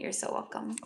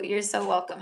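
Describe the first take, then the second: First: Soft breathy whisper of thanks; a hushed, gentle you're welcome. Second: Said in the usual way. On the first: Real, not acted. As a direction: whisper it tenderly to the viewer. Repeating thanks softly to viewer.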